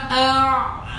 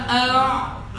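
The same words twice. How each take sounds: Both takes have the same delivery.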